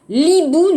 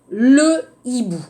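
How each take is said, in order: First: The article's vowel is dropped and joined to hibou. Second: The article's vowel is kept, separate from hibou. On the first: The speaker calls it wrong. "on va dire par exemple, l'hibou, non" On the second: The speaker calls it right. "on va dire le hibou"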